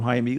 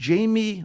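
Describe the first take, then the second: First: The name is said as Hai-meh. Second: The name is said like English Jamie. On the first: The speaker calls it right. "we'll call him Jaime. Let's get the pronunciation proper here" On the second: The speaker calls it wrong. "it looks like Jamie"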